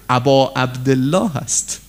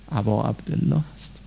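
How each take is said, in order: First: Said in the usual way. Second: Much softer and lower, ending on a gentle rise; hushed echo. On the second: Shown as a demonstration. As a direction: let ابا عبدالله هست sink to a soft, low echo with a small rise on عبدالله.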